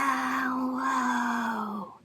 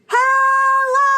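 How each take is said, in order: First: It is said quietly. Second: It is said loudly.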